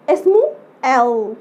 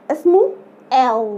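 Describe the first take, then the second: No difference in how they are said.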